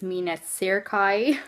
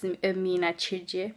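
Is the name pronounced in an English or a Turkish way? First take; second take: English; Turkish. First: The name is said with English pronunciation. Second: The name is said with Turkish pronunciation. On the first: "if you want to pronounce it the English way" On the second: "But in Turkish"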